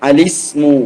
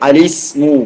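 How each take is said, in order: The two takes are said the same way.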